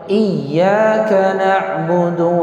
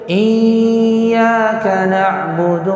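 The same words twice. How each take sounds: First: The doubled y sound is short and stressed. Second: The doubled y sound is held long. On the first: The speaker calls it right. "Ya bertasydid" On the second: The speaker calls it wrong. "Enggak boleh dibaca gini nih"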